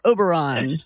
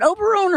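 First: "Oberon" ending to rhyme with "John". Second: "Oberon" ending to rhyme with "bone"; Oberon ending in "own". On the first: Host offering caller the other version, "Oberon" said with an "-ahn" ending. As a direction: say "Oberon" with an open "ahn" last syllable. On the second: Host checking caller's name, "Oberon" said with an "-own" ending. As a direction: say "Oberon" with a long O in the last syllable, like "own". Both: Shown as a demonstration. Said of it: "Is it Oberon or Oberon".

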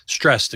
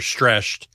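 First: Said in the usual way. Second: "stressed" slurred with a sh sound, like "streshed"; slip of the tongue. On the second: Real, not acted. Weatherman slips explaining the trees, "stressed" misspoken as "streshed". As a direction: stumble on "stressed", turning the s into sh. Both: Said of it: "stressed, excuse me".

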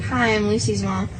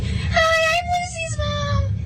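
First: Said in the usual way. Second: Daughter mimicking mom's sky-high greeting; mock a mom's very high, drawn-out hello; exaggerated squeaky-high introduction; really high-pitched voice. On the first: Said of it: "her usual is like". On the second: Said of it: "she has, like, a really high pitched voice".

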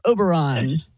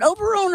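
First: "Oberon" ending in an open AHN; "Oberon" with a broad "ah" in the ending; second pronunciation. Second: "Oberon" ending in a long OHN; "Oberon" rhyming its end with "bone"; first pronunciation. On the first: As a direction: say "Oberon" with the last syllable like "on". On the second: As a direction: say "Oberon" with the last syllable like "own". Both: Shown as a demonstration. Asks which of two pronunciations.

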